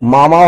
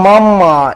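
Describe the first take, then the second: First: The middle m sound is short and single. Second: The middle m sound is held long, doubled.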